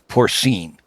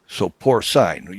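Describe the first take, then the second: First: The last syllable rhymes with 'seen'. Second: The last syllable rhymes with 'line'. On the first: "the N would be S E E N in pronunciation" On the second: "you got bovine, you got equine"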